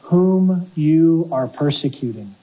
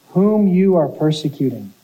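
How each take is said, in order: First: Slow weighty words, each one landed; slow solemn emphasis. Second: Said in the usual way. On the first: Retold or imitated. Jesus confronting Saul, slow and solemn. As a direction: let whom you are persecuting sink in slowly. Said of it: "the Lord says".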